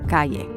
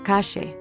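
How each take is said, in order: First: The ll is said like a y. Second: The ll is said like sh, Argentine style.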